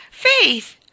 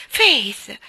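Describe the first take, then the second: First: Much higher, louder shriek of Faith!; second Faith! shrieked in panic; terrified scream. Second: Loud cry of her name in terror; frightened cry. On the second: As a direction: call out Faith, alarmed. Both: A narrator's reading. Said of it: "gridò Lois in preda al terrore".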